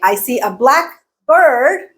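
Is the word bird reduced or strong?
strong. Bird keeps its full vowel and strong stress. "a random bird like a crow"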